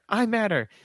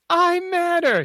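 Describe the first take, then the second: First: The phrase is said at normal volume. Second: The phrase is said more loudly.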